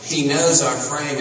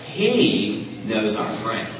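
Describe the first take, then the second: First: "knows" pressed harder and falling; stress on knows. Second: "He" stretched and weighted, whole line slow; slow emphatic stress on he. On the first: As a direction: lean on the word "knows", falling after it. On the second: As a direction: land on "He", then slowly "knows our frame". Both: Shown as a demonstration. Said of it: "and it's emphatic".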